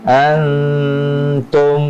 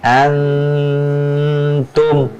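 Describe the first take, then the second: First: The nasal sound is held for a while. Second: The same.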